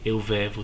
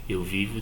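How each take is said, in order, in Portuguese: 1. A primeira vogal do verbo soa como 'e'. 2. A primeira vogal do verbo soa como 'i'. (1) "Não existe o verbo vever" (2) "Existe o verbo viver"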